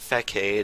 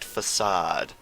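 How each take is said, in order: First: The middle consonant is a hard k sound. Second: The middle consonant is a soft s sound. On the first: The speaker calls it wrong. "it is not Facade" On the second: The speaker calls it right. "it is in fact Facade"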